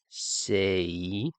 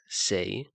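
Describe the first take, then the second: First: The word is drawn out very slowly. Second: The word is said at normal speed. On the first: "if I say say really slowly" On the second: "as most English speakers would pronounce it"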